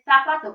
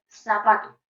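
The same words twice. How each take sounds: First: The first sound is a lisped th sound. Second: The first sound is a hissing s sound. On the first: "como nosotros pronunciaríamos" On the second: "la pronunciación de la C como una S"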